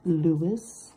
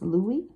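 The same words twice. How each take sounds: First: The name is said in an American way. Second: The name is said in a non-American way. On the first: The speaker calls it wrong. "like my American mouth wants to say it" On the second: The speaker calls it right. "I'm sure that's Louis"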